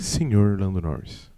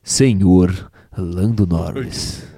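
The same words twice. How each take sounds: First: Low, slow velvety tone. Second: Deep, slow, velvety radio voice; sultry narrator. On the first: Pretend. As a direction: purr the name softly. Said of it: "Agora falem com a voz aveludada". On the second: Shown as a demonstration. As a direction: purr it like a late-night DJ. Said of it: "Tem que ser com mais, mais punch".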